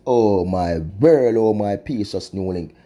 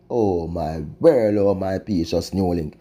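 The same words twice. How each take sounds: First: Drawn-out mournful sigh of a refrain; slow lament. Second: Drawn-out mournful refrain; slow lament. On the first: Vlogger lamenting to viewers, slow mournful refrain. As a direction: moan it slowly, shaking your head in disbelief. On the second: Vlogger repeating refrain to viewers, slow mournful lament. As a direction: drag it out, heavy with dismay. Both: Real, not acted.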